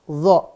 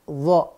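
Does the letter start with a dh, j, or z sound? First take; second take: dh; dh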